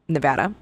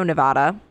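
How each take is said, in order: First: Nevada with the short "a" of "cat", nuh-VAD-uh; corrected Nevada. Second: Nevada with a broad "ah" in the middle, nuh-VAH-duh; mispronounced Nevada. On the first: Host corrects the slip after being roasted, Nevada said nuh-VAD-uh. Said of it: "trying to say it correctly". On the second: Host slips while telling of the arrest in Reno, Nevada said nuh-VAH-duh. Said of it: "not being able to say Nevada right". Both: Real, not acted.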